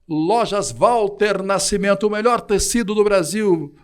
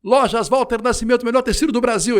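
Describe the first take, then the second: First: It is read slowly, with embellished, showy delivery. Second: It is read quickly, rushing through the words. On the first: The paying sponsor is valued. The speaker calls it right. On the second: The sponsor is not given value. The speaker calls it wrong.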